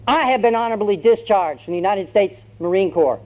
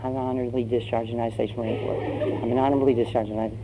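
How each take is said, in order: First: High-pitched, defiant announcement; bold declaration. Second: Quick, hushed self-reminder; timid muttering. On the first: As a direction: declare your freedom to the sergeant. Recruit now defies the sergeant. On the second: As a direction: mutter a memorized line fast under your breath. Recruit nervously rehearses his memorized line. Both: Acted.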